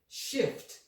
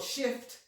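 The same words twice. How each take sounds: First: It is said slowly. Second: It is said at normal speed.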